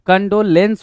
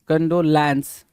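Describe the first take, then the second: First: The last syllable is said like 'lence'. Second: The last syllable is said like 'lance'. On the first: The speaker calls it right. "कंडोलेंस होता है" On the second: The speaker calls it wrong. "C O N D O L ए N C ई, होता क्या है भाई"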